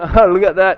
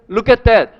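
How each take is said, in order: First: The words blur together, sounding like 'like that'. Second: Every word is pronounced fully and separately. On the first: The speaker calls it right. "실제로 그래서 이 사람들 발음 들어 look at that 이렇게 들려요" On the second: The speaker calls it wrong. "근데 그거 갖다 이렇게 하겠어요? Look at that 이렇게 하겠어?"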